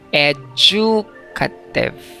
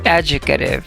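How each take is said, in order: First: The stress is on the second syllable. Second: The stress is on the first syllable. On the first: "wag na wag ninyong basahin yan ng educative. ... not on the second syllable ang stress" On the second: "nasa first syllable ang stress sa U- UK"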